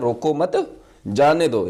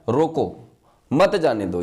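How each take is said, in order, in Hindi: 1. विराम दूसरे शब्द के ठीक बाद आता है। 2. विराम पहले शब्द के ठीक बाद आता है। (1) "यानी रोकना नहीं है, इसको जाने दो" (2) "रोक लो मत जाने दो"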